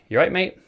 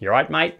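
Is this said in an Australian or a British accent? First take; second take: British; Australian. First: It is said in a British accent. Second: It is said in an Australian accent. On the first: "in the UK we'll be like" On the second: "That's my best Australian accent"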